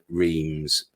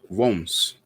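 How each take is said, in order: First: It is said with the popular pronunciation. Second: It is said with the local pronunciation. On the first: "most people call it Reims" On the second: "Now that's how you pronounce it"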